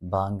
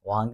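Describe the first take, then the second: First: The word begins with a b sound. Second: The word begins with a v sound. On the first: The speaker calls it wrong. "ബാങ്ക് എന്നല്ല" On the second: The speaker calls it right. "വാങ്ക് എന്നാണ് ശരിക്കും പറയേണ്ടത്"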